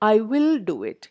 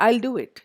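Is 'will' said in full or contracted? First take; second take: full; contracted. First: The word 'will' is said in full. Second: The word 'will' is contracted onto 'I'.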